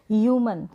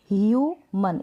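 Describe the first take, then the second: First: Said in the usual way. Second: ह्यूमन in two parts, ह्यू, then मन; long "hyoo" in ह्यूमन, then a separate "man"; syllable by syllable. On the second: Shown as a demonstration. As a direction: break ह्यूमन after its first syllable. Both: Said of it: "इसको break किया".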